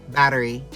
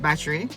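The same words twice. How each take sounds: First: It is said in an American accent. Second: It is said in a Jamaican accent. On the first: "But the Americans" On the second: "We pronounce it battery"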